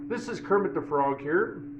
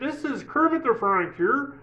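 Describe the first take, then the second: First: It is said in the speaker's natural voice. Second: It is said in a Kermit the Frog voice.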